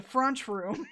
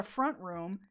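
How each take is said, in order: First: FRENCH said as "frunch", UH vowel and CH ending; regional pronunciation. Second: Said in the usual way. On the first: Retold or imitated. Explaining the local name for front room, regional pronunciation. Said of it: "It's a French room". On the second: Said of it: "It's not a front room".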